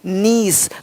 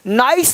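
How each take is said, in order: First: The vowel sounds like 'ee'. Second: The vowel sounds like 'eye'. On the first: The speaker calls it right. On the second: The speaker calls it wrong. "नाइस नहीं"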